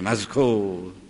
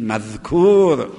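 First: The middle consonant is a 'z' sound. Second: The middle consonant is a soft 'dh' sound. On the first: The speaker calls it wrong. "مذکور به زه میگن" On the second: The speaker calls it right. "میگیم بگید مذکور"

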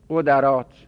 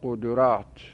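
First: The second vowel is a, unlike the first. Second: The second vowel is u, matching the first. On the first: "میتونیم به فتح بخونیم" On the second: "عین الفعل میتونه در حرکت تبعیت از فاعل فعل بکند"

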